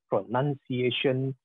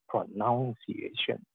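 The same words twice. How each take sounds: First: The second syllable sounds like 'nun'. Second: The second syllable sounds like 'noun'. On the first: The speaker calls it right. "it should be pronounced as pronunciation" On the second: The speaker calls it wrong. "not pronunciation"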